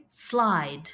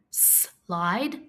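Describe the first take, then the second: First: Said in the usual way. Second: "Slide" split into a held "sss", then "lide"; sounded out. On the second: Shown as a demonstration. Teacher asking pupils to listen, Slide split as s, lide. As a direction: pause after the S in "Slide".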